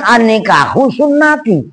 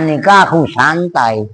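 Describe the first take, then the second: First: The last word is said as sunnati. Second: The last word is said as santai. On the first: The speaker calls it right. "Sebenarnya kan" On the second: The speaker calls it wrong.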